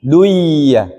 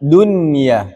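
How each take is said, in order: First: "duya" with the n lost in a held y; wrong merged reading. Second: "dunia" with a distinct n, not merged into ya; clear nun. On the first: Teacher warning against this reading, merged n. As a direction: merge nun into ya on "duya", falling at the end. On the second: Teacher repeating the example for students, clear unmerged nun. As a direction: sound the n in "dunia" plainly before the ya. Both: Shown as a demonstration. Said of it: "Tidak dibaca".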